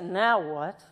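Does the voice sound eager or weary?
weary. It sounds weary and reluctant. Dreading or tired of what comes next. "I hear people say, now what? It's a little different"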